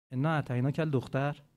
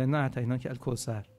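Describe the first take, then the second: First: Said in the usual way. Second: الکوثر landed with a falling close; stress on الکوثر. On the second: Shown as a demonstration. Preacher gives the true verse, falling on الکوثر. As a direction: settle the verse firmly on الکوثر. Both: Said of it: "یا".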